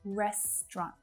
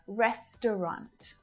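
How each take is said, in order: First: The word is said with two syllables. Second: The word is said with three syllables. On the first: "reduce that down to just two" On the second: "if you find that a little tricky, stick with restaurant"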